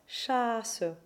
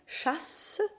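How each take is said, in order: First: The s sound is short after a long vowel. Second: The s sound is held long. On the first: The speaker calls it right. "with a long vowel and a single consonant" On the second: The speaker calls it wrong. "they do not have a long S sound. So it isn't chasse"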